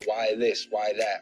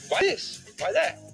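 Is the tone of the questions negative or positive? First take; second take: negative; positive. First: The questions sound negative and resentful. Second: The questions sound positive and curious. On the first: The speaker resents what others have. The speaker calls it wrong. "a life of being a hater" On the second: The speaker wants to learn what works for others. The speaker calls it right. "change your tone"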